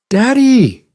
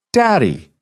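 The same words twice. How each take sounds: First: Put-on very high, drawn-out child's protest of Daddy!; whiny protesting little girl. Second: Put-on high, sweet little-girl cry of Daddy!; little girl's call. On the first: Daughter protests being sent to brush again, high whine. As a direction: whine Daddy! like a caught kid. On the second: Little girl greets her dad on video call, high and sweet. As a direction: chirp Daddy! like a happy five-year-old. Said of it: "The voice was high and sweet".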